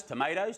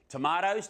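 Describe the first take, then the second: First: "tomatoes" said with an ay, to-MAY-toes; tomayto pronunciation. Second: "Tomatoes" said with a broad ah, to-MAH-toes; tomahto pronunciation. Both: Shown as a demonstration. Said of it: "depending on how you want to say them".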